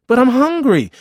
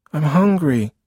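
First: Put-on very high, loud childish wail; whining child, escalated. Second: Put-on high, loud little-boy complaint; whining child. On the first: Hungry boy protesting to brother's refusal, loud whining. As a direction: push the whine right up, loud. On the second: Boy repeating himself to busy big brother, whining. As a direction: insist in a raised child's whine.

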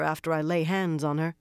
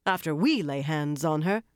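First: Said in the usual way. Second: "we" hit hard and rising; stress on we. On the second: Acted. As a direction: punch "we" to correct her. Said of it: "nodding for emphasis".

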